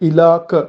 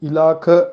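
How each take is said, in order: Both takes have the same delivery.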